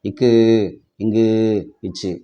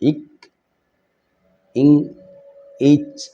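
First: Each consonant ends with an added u vowel. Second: Each consonant stops short with no vowel after. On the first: The speaker calls it wrong. "தயவுசெய்து அப்படி உச்சரிக்காதீங்க" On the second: The speaker calls it right. "மெய் எழுத்துக்களை சொல்லும் போது, இக் இங் இச் இஞ்ச் அப்படி தான் சொல்லுவோம்"

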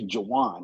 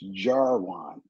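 First: The R sound in the name is silent. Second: The R sound in the name is pronounced. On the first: The speaker calls it wrong. "fail to pronunciate my name correctly, it's always Jarwin" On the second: The speaker calls it right. "The R is not silent"

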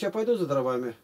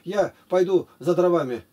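First: The words flow together without pauses between. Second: Each word is said separately with pauses between. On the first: The speaker calls it right. "Ты же говоришь" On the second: The speaker calls it wrong. "Ты же так не разговариваешь"

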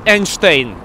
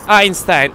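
First: The name is said with a Russian pronunciation. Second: The name is said with an English pronunciation. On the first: "In Russian, is Einstein" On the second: "Einstein in English is Einstein"

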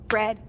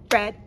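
Both takes have the same delivery.

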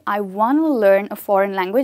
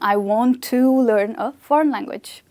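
First: 'Want to' is reduced to 'wanna'. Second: 'Want to' is said as two full words. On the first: "you can easily say" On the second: "instead of saying"

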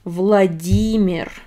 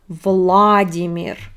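First: The stress falls on the 'ee' sound. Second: The stress is not on the 'ee' sound. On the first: The speaker calls it right. "In Russian, we stress E" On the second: The speaker calls it wrong. "It's not Vladimir, no"

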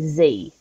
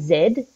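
First: The letter is said the American way, zee. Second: The letter is said the Australian way, zed.

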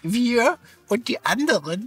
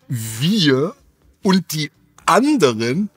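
First: It is said in a disguised, put-on voice. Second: It is said in the speaker's natural voice.

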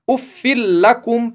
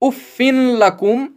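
First: The n sound merges fully into the l. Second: The n sound is heard before the l. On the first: The speaker calls it right. "बल्कि ... पढ़ेंगे, जैसे यहां सिर्फ एक ही जेर हो" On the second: The speaker calls it wrong. "नहीं"

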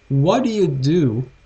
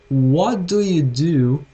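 First: The phrase is spoken at a faster pace. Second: The phrase is spoken at a slower pace.

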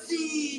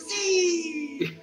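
First: The word is said flatly, without exclaiming. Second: The word is loudly exclaimed with energy.

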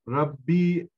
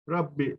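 First: The final vowel is drawn out long. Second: The final vowel is cut short. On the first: "Rabbi şeklinde uzatma" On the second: "Rabbi şeklinde o ye düşmüş"

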